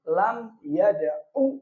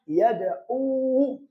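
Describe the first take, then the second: First: Slow Lam yada'u with the last u clipped short; short final vowel. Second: Slow yada'u with a long held uu at the end; higher, slow demo of yada'u ending yad-'uuu; long final vowel. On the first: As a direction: hold Lam, then end yada'u on a short 'u. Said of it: "wawunya dibuang". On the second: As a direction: draw out the last u of yada'u for the wawu. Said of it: "Asalnya ada wawunya". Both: Shown as a demonstration.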